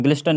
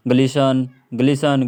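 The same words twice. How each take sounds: First: "ग्लिस्टन" with an audible T; wrong reading, T sounded. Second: "ग्लिसन" with no T sound; silent T. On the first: Teacher recalling what not to read, T sounded in "ग्लिस्टन". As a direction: say "ग्लिस्टन" as glis-tan. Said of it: "नहीं पढ़ रहे थे हम लोग". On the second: Teacher drilling the correct reading, T dropped in "ग्लिसन". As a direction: say "ग्लिसन" as gli-san. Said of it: "ग्लिस्टन नहीं पढ़ रहे थे". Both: Shown as a demonstration.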